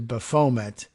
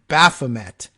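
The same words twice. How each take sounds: First: The stress is not on the first syllable. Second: The stress is on the first syllable. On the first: The speaker calls it wrong. "as opposed to" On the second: The speaker calls it right. "putting the uh, emphasis on the first syllable"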